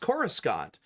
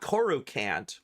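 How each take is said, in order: First: The S in the middle is clearly sounded. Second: The S in the middle is left silent. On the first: The speaker calls it right. "There's an S in there" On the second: The speaker calls it wrong. "It is not Coruscant. ... You don't have the silent S"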